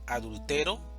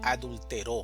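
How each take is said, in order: First: The stress is on the third syllable. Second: The stress is on the last syllable.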